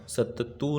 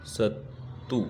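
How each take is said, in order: First: सत्तू said as satt-too with a long held double t; teacher voices the misspelt सत्तू with a stressed doubled t; wrong spelling read out. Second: सत्तू said as sa-too with a single short t and a soft rise; teacher gives the correct सत्तू, short t, quietly rising; corrected word. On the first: Teacher reading the wrong spelling aloud, सत्तू with a doubled t. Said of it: "सत्तू नहीं होता". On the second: Teacher answers her own question with the corrected सत्तू, short t. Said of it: "क्या होता है". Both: Shown as a demonstration.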